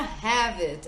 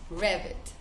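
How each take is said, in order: First: The word begins with an H-like sound. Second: The word begins with an English R sound. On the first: This is how colleagues in a Brazilian office say the name. The speaker calls it wrong. "a pronúncia errada causa desentendimentos" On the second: This is how the name is said when speaking English. The speaker calls it right. "Tem que falar com a pronúncia em inglês"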